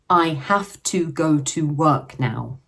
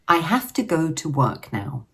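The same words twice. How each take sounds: First: Each word is said separately, sounding stiff. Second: The words are grouped smoothly into chunks. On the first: The speaker calls it wrong. "If we said each word in a sentence separately, it would sound stiff" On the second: The speaker calls it right. "with chunking, we group it naturally"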